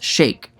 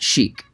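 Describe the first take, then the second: First: The vowel sounds like the one in 'cake'. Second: The vowel sounds like the one in 'seek'. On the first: "Many people commented that the word chic is actually pronounced shake" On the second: "it was definitely pronounced chic"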